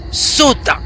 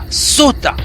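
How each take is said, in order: Both takes have the same delivery.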